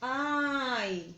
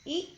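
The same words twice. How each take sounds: First: The vowel sound is long, like its name. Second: The vowel sound is short and clipped.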